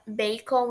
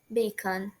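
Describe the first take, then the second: First: It is said with Brazilian Portuguese sounds. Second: It is said with English sounds. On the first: The speaker calls it wrong. "apesar da gente pronunciar bacon e achar que tá correto, não tá" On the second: The speaker calls it right. "A pronúncia correta é bacon"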